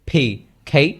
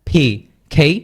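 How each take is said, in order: No difference in how they are said.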